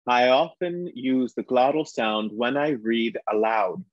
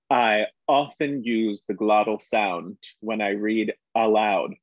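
First: The vowel-starting words begin smoothly without a glottal catch. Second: The vowel-starting words begin with a hard glottal catch. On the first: "when I take away that glottal sound, when we teach actors, we call it um, easy onset" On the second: "I dropped it in quite a bit um, before those vowel words"

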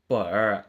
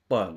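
First: The final nasal is swallowed and barely heard. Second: The final nasal is pronounced clearly and separately. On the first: The speaker calls it right. "ตัวอึนที่เป็นนาสิกหน้า, มันถูกกลืนเข้าไปเลย, แทบจะไม่ได้ยินเลย" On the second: The speaker calls it wrong. "เราก็จะไม่พูดแบบนี้ไม่แยกกันอย่างชัดเจน"

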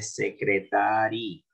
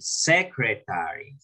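First: The word is read with Spanish sounds and stress. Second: The word is read with English sounds and stress. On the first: The speaker calls it wrong. "No van a decir secretary" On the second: The speaker calls it right. "miren aquí donde va el acento"

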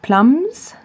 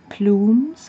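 First: The vowel is short, as in drums. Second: The vowel is a long oo, as in fumes. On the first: The speaker calls it wrong. "And not plums" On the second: The speaker calls it right. "I think it was the right way to pronounce it"

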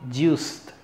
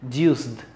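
The two takes are said the same way.

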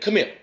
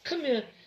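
First: The voice is firm, hard and commanding. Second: The voice is soft, low and gentle. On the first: It is said as discipline to a son. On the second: It is said tenderly to a daughter.

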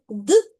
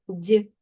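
First: The consonant is pronounced hard, without palatalization. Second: The consonant is pronounced soft, with palatalization. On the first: "твердий приголосний д" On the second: "має свою м'яку пару ді"

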